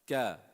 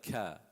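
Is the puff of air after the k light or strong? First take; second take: light; strong. First: The k has only a light puff of air. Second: The k has a strong puff of air. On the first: The speaker calls it right. "not not too much" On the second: The speaker calls it wrong. "Not like ka"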